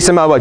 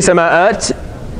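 First: A w sound comes before the final syllable. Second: A glottal stop comes before the final syllable. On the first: The speaker calls it right. "You change the hamza to a waw and becomes samawat" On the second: The speaker calls it wrong. "You don't say sama'at"

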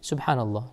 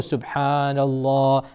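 First: It is said at a normal pace. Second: It is said very slowly.

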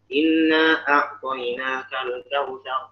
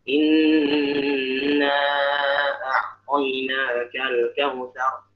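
First: The nasal nn in inna is cut short. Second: The nasal nn in inna is held long. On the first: The speaker calls it wrong. "kita nanti baca bisa ngasal-ngasalan ... Di mana gunnahnya?" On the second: The speaker calls it right. "Ini jelas. Ya tasydidnya berharakat"

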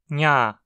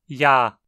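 First: The syllable is nasalized, with air through the nose. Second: The syllable is oral, with air through the mouth. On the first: "Baixando o véu palatino e deixando o ar sair pelo nariz, temos sua versão nasalizada" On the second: "O ar escapa apenas pela boca"

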